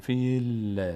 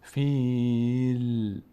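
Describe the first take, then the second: First: The final l carries an added short i vowel. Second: The final l is stopped with no vowel. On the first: The speaker calls it wrong. "بعضی از عزیزان این کار میکنن فیل یک کسره بهش میدن" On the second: The speaker calls it right. "نه فیل. همین که روی لام وایس زبانتون رسید توقف کنید"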